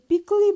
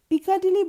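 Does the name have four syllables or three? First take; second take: three; four. First: The name is shortened to three syllables. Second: The name is said with four full syllables. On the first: The speaker calls it right. "আপনি যদি পিকলি বলেন তাহলে ওখানকার সাধারণ লোক বুঝবে আরো সহজে" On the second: The speaker calls it wrong. "সেটার বানান দেখে পিকাডিলি বলতে ইচ্ছা করলো"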